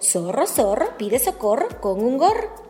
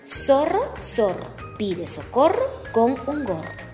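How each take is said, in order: First: It is said at a very fast pace. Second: It is said at a slow pace.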